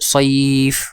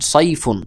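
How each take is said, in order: First: It stops on the consonant, vowel held longer. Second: It ends with a full 'un' ending. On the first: The reader stops at this word. "ওয়াকফ করেন তাহলে হবে" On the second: Reading continues without a stop. "আপনি যদি উচ্চারণ করেন তাহলে এভাবে হবে"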